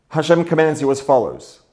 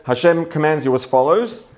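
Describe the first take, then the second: First: Commands pressed a little harder, falling after; stress on commands. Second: Said in the usual way. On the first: Shown as a demonstration. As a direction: lean into the word commands. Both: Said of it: "If it says Hashem commands you as follows".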